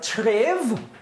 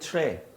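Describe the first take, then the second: First: The word ends with a v sound. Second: The word ends on a vowel.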